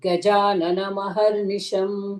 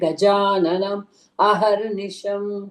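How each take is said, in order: First: The two words are run together without a break. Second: The two words are said separately with a break.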